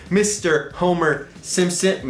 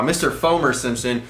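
First: HOMER said with an H, slow and deliberate. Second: FOMER starting on an F sound instead of H. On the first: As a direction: say HOMER slowly, starting on the H sound. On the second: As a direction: say FOMER with an F in place of the H. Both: Real, not acted. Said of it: "I hope I said Fomer".

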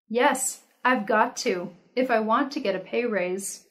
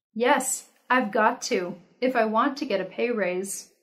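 The two takes are said the same way.

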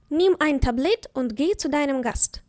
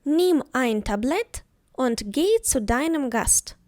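First: Said in the usual way. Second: Slow, careful dictation of the sentence; slow example. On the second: Shown as a demonstration. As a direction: say it slowly so every word is clear. (повільно, чітко)

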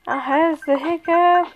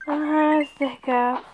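First: Lines broken by hiccups; hiccuping. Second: Said in the usual way. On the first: Real, not acted. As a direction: hiccups jolting the voice. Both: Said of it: "'Cause I'm hiccuping".

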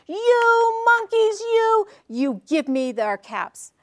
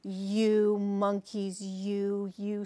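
First: Loud, high, drawn-out mock fury; mad peddler. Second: Very slow, low, measured scolding; scolding peddler. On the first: Peddler loses his temper at copycat monkeys, storybook anger. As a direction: burst out high on the first words, slowly scolding. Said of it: "he got so mad". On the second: Peddler first scolds the monkeys in the tree, slow scolding. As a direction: draw out each word in a restrained reprimand. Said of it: "Finally, he spoke to them". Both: A narrator's reading.

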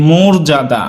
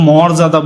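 First: মর্যাদা with rounded o, "mor-ja-da"; as spoken. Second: মর্যাদা with open "aw", "mawr-ja-da"; less common pronunciation. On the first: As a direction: say মর্যাদা starting "mor", closed o. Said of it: "আমরা কিন্তু বলি কি". (মর্যাদা-কে "মোর্-জাদা" বলে উচ্চারণ) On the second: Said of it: "আমরা কিন্তু মর্যাদা বলি খুব কম". (মর্যাদা-তে খোলা অ উচ্চারণ) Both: Shown as a demonstration.

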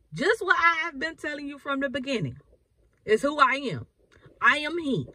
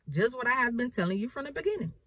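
First: Higher and insistent, pressing each phrase; firm emphatic restatement. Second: Said in the usual way. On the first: Retold or imitated. Jesus repeating his answer, firm and emphatic. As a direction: declare it like it can't be changed. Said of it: "He's like". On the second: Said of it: "And Jesus said to them".

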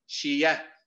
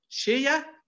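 First: Said in the usual way. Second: شية jumps high on the stress; exaggerated stressed take of شية; pitched-up stress. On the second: Shown as a demonstration. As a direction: lift شية sharply up in pitch. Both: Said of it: "هو نفس الذي نقوله".

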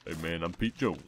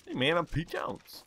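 First: Low relaxed put-on greeting; easygoing character hello; lower voice variant. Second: Much higher put-on greeting; hammed-up character hello; higher voice variant. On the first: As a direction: drop back down into the voice. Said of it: "so easy to just go down to this voice". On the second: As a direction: pitch it way up for the demo. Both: Shown as a demonstration.

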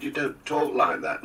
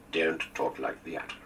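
First: High, louder mock Scottish accent; imitated Scottish accent. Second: Slow, firm American drawl; firm, mock American accent. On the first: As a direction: protest in a put-on Scottish lilt. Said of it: "talking like this". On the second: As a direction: firmly mimic an American accent while scolding. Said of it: "discouraged that with a firm".

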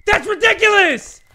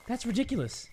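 First: Loud, high outraged cry; shouted frustration; exasperated shout. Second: Muttered. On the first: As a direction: blow up at the game. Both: Real, not acted. Said soft then shouted.

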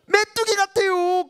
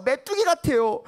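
First: 메뚜기 drawn out slow, high; stress on 메뚜기. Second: Said in the usual way. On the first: Shown as a demonstration. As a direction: lean hard on 메뚜기. ("메뚜기"를 길게 강조)

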